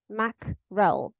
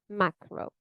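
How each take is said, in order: First: The word ends with a clear l sound. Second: The word ends without any l sound. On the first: This is the dictionary pronunciation. "mackerel with a l at the end" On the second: This is how it sounds in natural speech. "That's what I can hear"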